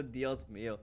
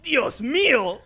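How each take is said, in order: First: Low, soft, deadpan Dios mío; understated mock dub sigh. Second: High, loud mock dub cry of Dios mío; hammed-up Spanish dub shock; dubbed exclamation. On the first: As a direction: drop it flat and quiet like a tired dub. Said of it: "There's always a". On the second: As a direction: belt it like an overacted dub actor. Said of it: "And they're like".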